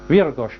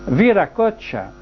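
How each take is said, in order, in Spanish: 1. El nombre se reduce a dos sílabas. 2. El nombre se dice en cuatro sílabas completas.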